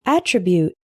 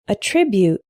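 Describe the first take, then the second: First: ATTRIBUTE stressed on the first syllable; noun pronunciation. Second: ATTRIBUTE stressed on the second syllable; verb pronunciation. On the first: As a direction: say Attribute as AT-rih-byoot. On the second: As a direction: say Attribute as uh-TRIB-yoot. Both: Shown as a demonstration. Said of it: "attribute and attribute".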